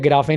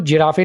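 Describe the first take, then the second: First: It starts with g and ends with a vowel. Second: It starts with j and ends with a vowel. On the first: "या गिराफे नहीं बोलना" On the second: "इसको जिराफे नहीं बोलना"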